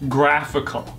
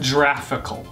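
First: The word begins with a hard G sound. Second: The word begins with a soft G sound. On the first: The speaker calls it right. "It's a hard G" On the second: The speaker calls it wrong. "not a soft G"

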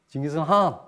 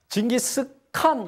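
First: The last syllable has a nasal in-between sound. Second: The last syllable starts with a hard k sound. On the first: The speaker calls it right. "콧소리, 징기스한. 근데 칸도 아니고 한도 아니고 중간 발음" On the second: The speaker calls it wrong. "우리가 징기스칸 이렇게 읽잖아요"

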